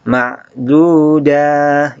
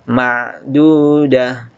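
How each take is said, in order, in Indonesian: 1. Suku kata akhir dah dibaca panjang. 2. Suku kata akhir dah dibaca pendek. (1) "Danya jangan dipanjangkan. Ma'dudah, itu keliru" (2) "tapi langsung uh, pendek ya"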